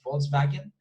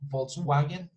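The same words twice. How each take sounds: First: The second part begins with a V sound. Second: The second part begins with a W sound. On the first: The speaker calls it right. "but Volkswagen" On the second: The speaker calls it wrong. "here is not wagon, Volkswagen, no"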